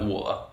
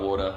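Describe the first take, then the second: First: It is said in his original English accent. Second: It is said in a more American accent.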